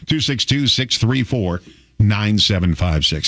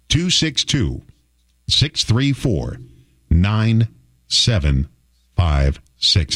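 First: The number is said fast. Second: The number is said slowly.

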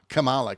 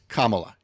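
First: The name does not begin like 'comma'. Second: The name begins like the word 'comma'. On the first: The name is being deliberately mocked. The speaker calls it wrong. "people intentionally mispronouncing the vice president's name" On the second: The name is given respectfully. The speaker calls it right. "It's Kamala"

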